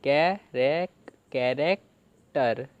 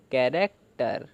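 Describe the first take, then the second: First: Slow, stretched syllables; teacher slowly assembling the word; slow build-up. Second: Said in the usual way. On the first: Shown as a demonstration. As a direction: draw the word out for the class. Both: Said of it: "तो क्या बना?".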